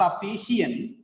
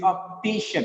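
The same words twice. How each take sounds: First: "optician" ending in two vowels, op-ti-shi-an; wrong pronunciation, "shian". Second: "optician" as op-TI-shun; correct ending, "shin". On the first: Teacher showing the mistake, "optician" said op-ti-shi-an. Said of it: "it is not optician". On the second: Teacher correcting the mistake, "optician" said op-TI-shun. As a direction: end "optician" in one short "shun". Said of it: "it is optician". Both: Shown as a demonstration.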